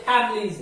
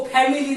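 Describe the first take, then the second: First: "फैमिलीज" run together as FAM-leez; two syllables in "फैमिलीज", middle vowel dropped; correct pronunciation demo. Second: "फैमिली" with the middle syllable sounded out; mispronunciation demo. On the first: Teacher correcting students' reading, "फैमिलीज" said as FAM-leez. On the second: Teacher showing students how not to read it, "फैमिली" fully sounded. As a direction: show the unwanted reading of "फैमिली". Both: Shown as a demonstration. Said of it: "इसको फैमिली नहीं पढ़ते".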